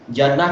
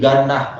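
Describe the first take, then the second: First: The word begins with a j sound. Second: The word begins with a hard g sound. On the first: The speaker calls it right. "bukan ja tapi ga" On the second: The speaker calls it wrong. "Jannah jadi ganah"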